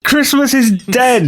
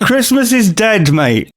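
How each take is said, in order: First: Slow, high, booming proclamation; sinister boom. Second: Loud declaration. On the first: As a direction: declare it slowly, like a doom. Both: Acted. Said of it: "at the top of your voice".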